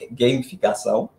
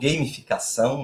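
First: The first syllable sounds like English 'game'. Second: The first syllable is a plain Portuguese 'ga'. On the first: The speaker calls it right. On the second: The speaker calls it wrong.

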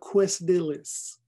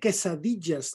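First: It is pronounced the English way. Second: It is pronounced the Spanish way. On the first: The speaker calls it wrong. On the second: The speaker calls it right. "Se dice"

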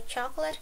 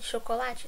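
First: The word is said with English pronunciation. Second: The word is said with Portuguese pronunciation. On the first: "The way that we write it, it's the same. It's just the pronunciation that's different" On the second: "chocolate in Portuguese, we say this as chocolate"

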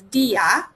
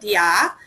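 First: The i sound carries the stress. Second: The i sound is not stressed. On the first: The speaker calls it right. "You will see an accent over the I's, so that instead of dia, it is dia" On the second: The speaker calls it wrong. "instead of dia"

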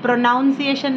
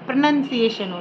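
First: The second syllable sounds like 'noun'. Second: The second syllable sounds like 'nun'. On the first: The speaker calls it wrong. "Pronunciation nahi hota hai" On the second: The speaker calls it right. "pronunciation hota hai"

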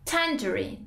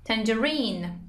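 First: American pronunciation, stressed on the first syllable. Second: British pronunciation of the word. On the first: "توی آمریکایی تلفظ آمریکایی stress free سیلاب اول است" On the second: "Now in British English it's tangerine"

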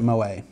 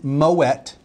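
First: The final t sound is silent. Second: The final t sound is pronounced. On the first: The speaker calls it wrong. "The umlaut means you don't pronounce it Moët" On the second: The speaker calls it right. "it is Moët"

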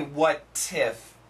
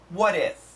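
First: The linking sound is a clear, crisp t. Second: The linking sound is a quick, soft d. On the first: The speaker calls it wrong. "We don't say what tiff in American English" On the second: The speaker calls it right. "diff, diff. It's a D-I-F"

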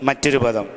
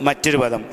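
No difference in how they are said.

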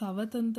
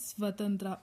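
First: A vowel separates the s and v sounds. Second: The s and v sounds are joined together. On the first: The speaker calls it wrong. "ಸವ ಅಂತ ಸವತಂತ್ರ ಅಂತ ಹೇಳಿಲ್ಲ" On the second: The speaker calls it right. "ಸ ಮತ್ತು ವ ಸೌಂಡ್ನ ಒಟ್ಟಿಗೆ ಸೇರಿಸಿ pronounce ಮಾಡಿರೋದ್ರಿಂದ"

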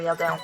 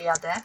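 First: The final vowel is clearly nasal. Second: The final vowel is a plain, non-nasal e. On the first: The speaker calls it right. "tylko jadę, bo zawsze musicie mówić tak, jak się piszą" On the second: The speaker calls it wrong. "nie mówcie jadę"

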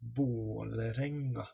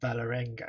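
First: The first vowel sounds between A and O. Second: The first vowel sounds like a plain A. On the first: The speaker calls it right. "it's pronounced somewhere in between an A and an O" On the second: The speaker calls it wrong. "it's not Valerenga"

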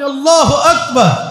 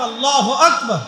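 First: It is said louder, with more voice. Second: It is said at a normal, softer volume.

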